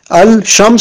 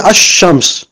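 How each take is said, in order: First: Al-shams with the l sounded; unassimilated lam. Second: Ash-shams with no l and a long, doubled sh; assimilated lam. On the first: Teacher showing learners the form before it changes, l kept in "al-shams". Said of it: "ça devient ash-shams". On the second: Teacher showing the lam disappears, doubled sh in "ash-shams". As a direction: drop the l and lengthen the sh in "ash-shams". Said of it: "ça disparaît". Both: Shown as a demonstration.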